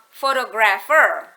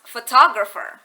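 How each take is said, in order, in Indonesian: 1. Tekanannya jatuh di tempat yang sama seperti pada photograph. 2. Tekanannya berpindah ke suku kata yang berbeda. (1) "it doesn't become photographer" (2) "it becomes photographer. Si penekanan uh, suku kata berubah"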